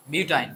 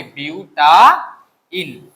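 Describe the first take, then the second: First: Said in the usual way. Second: butyne stretched out very slowly; slow model word. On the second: Shown as a demonstration. Teacher to students, modelling butyne very slowly. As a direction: drag out butyne syllable by syllable. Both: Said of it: "আমি যেভাবে বলি এইভাবে করো".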